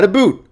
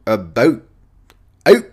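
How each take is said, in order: First: "boot" with a long oo, pitched high; high "boot" with an oo vowel; the wrong imitation. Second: "About", "Out" with clipped Canadian ou; Canadian pronunciation. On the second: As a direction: say "About" and "Out" with a raised diphthong. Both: Shown as a demonstration. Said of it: "You gotta do it like that".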